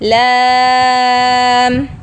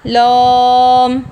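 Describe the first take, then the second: First: The l sound is thin and light. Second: The l sound is thick and heavy. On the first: The speaker calls it right. "लाम बारीक पढ़ा जाएगा" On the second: The speaker calls it wrong. "मोटा नहीं पढ़ना"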